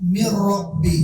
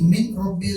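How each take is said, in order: First: The n merges into a doubled r sound. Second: A clear n is heard before the r. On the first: The speaker calls it right. "മിർ റബ്ബിൽ ആലമീൻ" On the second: The speaker calls it wrong. "മിൻ റബ്ബി അല്ല"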